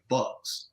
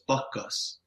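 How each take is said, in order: First: It is said with one syllable, no added vowel. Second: It is said with two syllables, an added vowel. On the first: This is how the word reads as written. "it looks like" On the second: This is how the Japanese players pronounced it. "the way the Japanese would say it was"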